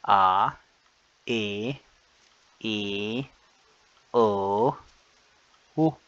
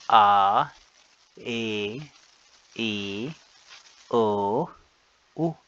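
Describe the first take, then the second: Both takes have the same delivery.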